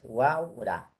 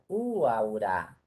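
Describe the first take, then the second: First: The stress falls on the a. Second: The stress falls on the first u. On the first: The speaker calls it right. "la forma es Huaura" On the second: The speaker calls it wrong. "Si pongo el acento en la primera U"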